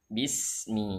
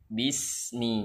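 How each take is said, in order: Both takes have the same delivery.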